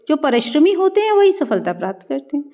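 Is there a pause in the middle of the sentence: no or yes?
no. It is said without a pause in the middle. The sense of the sentence does not come through. The speaker calls it wrong.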